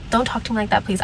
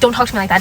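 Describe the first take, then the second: First: It is said in a sweet, condescending tone. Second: It is said in an angry, harsh tone.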